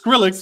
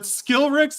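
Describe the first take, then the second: First: The name begins with the sound 'skril'. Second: The name begins with the sound 'skil'. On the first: The speaker calls it right. "It's [name]" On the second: The speaker calls it wrong. "Skillrix is the perfect fuck up"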